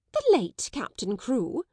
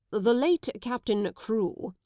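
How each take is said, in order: First: Slow, higher, a touch louder; shocked cry. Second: Said in the usual way. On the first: Acted. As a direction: cry it back in disbelief. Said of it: "she cried out".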